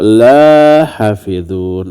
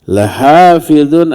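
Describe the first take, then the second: First: The first vowel is held long. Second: The first vowel is held short. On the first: It says it will not be guarded. The speaker calls it wrong. "jangan dibaca panjang" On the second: It affirms that it will surely be guarded. The speaker calls it right. "la-nya dibaca pendek"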